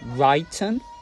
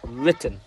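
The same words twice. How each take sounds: First: The first vowel is long, as in 'write'. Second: The first vowel is short, as in 'bit'. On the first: The speaker calls it wrong. "Is it the long sound I" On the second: The speaker calls it right. "Or is it the short sound E"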